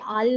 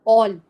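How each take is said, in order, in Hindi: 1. इस स्वर की ध्वनि खुली और बिना गोल होठों वाली 'ah' ध्वनि है। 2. इस स्वर की ध्वनि गोल होठों वाली 'aw' ध्वनि है। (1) "ये आल नहीं होता" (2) "नेक्स्ट होगा आपका ऑल"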